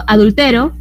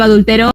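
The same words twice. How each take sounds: First: "adultero" stressed on TE, final o left weak; stress on second-to-last syllable. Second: "adulteró" stressed on the final RÓ; stress on last syllable. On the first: Teacher showing students an unaccented verb, "adultero" stressed on TE. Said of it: "Si yo digo adultero". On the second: Teacher contrasting accented verb for students, "adulteró" stressed on final RÓ. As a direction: say "adulteró" as adulteRÓ, landing on the ending. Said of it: "pero si digo adulteró". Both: Shown as a demonstration.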